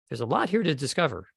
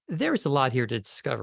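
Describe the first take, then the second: First: The first word is said quickly, without weight. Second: The first word is given clear emphasis. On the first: The speaker calls it wrong. "you're kind of like moving pretty quickly through theirs ... and I exaggerate to illustrate the point" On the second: The speaker calls it right. "If you if you put a little value on that word there"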